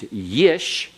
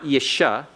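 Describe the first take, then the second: First: The syllable ends on sh with no vowel. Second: A short vowel is sounded after the sh. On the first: The speaker calls it right. "The first one is always what? Silent" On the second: The speaker calls it wrong. "not yisha"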